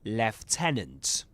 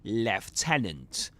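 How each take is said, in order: First: It is said with a British accent. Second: The same.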